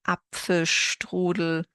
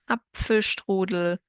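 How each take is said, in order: Both takes have the same delivery.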